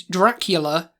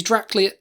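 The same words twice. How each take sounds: First: Dracula slowly as DRAC-yu-la; corrected pronunciation. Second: Dracula slurred to DRAC-lia; mispronunciation. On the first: Guest correcting their own slip, Dracula said DRAC-yu-la. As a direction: sound every syllable of Dracula, with "yu" in the middle. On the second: Guest slipping into friend's mistake, Dracula said as DRAC-lia. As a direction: drop the "yu" in Dracula, ending "-lia". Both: Acted. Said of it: "You got me saying it now".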